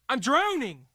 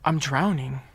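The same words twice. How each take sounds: First: It is said in an angry tone. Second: It is said in a sorrowful tone.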